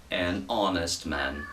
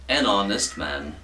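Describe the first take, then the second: First: "An honest man" slow and soft, H silent; slow, soft model. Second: Said in the usual way. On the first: Shown as a demonstration. Teacher repeating the model phrase slowly and softly for students. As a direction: spell it out slowly and softly for the class. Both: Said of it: "soaria melhor".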